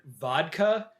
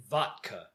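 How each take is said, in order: First: Said in the usual way. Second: "vodka" said as "VOT-ka"; quirky "vot-ka" for "vodka"; imitated pronunciation. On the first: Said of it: "he pronounces it vodka". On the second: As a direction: imitate his "vodka", a hard t in place of the d. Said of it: "except he pronounces it vodka".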